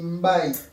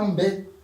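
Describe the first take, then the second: First: Every written letter is pronounced. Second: Some written letters are left silent. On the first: The speaker calls it right. "toutes les lettres se lisent" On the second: The speaker calls it wrong. "tu ne dis pas"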